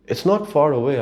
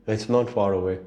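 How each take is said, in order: First: "not" punched, higher and louder; emphatic warning. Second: Said in the usual way. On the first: Real, not acted. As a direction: lean hard on "not" as a warning.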